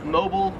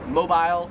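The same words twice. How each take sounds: First: It is pronounced the American way. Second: It is pronounced the Australian way.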